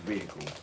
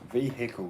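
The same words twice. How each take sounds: First: The h sound in the middle is silent. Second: The h sound in the middle is pronounced. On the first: The speaker calls it right. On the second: The speaker calls it wrong.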